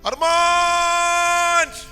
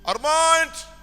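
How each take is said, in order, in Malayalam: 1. ഉച്ചത്തിലുള്ള നിലവിളി, നിറയെ വേദന. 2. ഉച്ചത്തിലുള്ള വിളി, കഠിനമായ വേദനയില്ലാതെ. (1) "ഹൃദയം നുറുങ്ങിയുള്ളൊരു വിളിയാ" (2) "ഉച്ചത്തിൽ വിളിച്ചു"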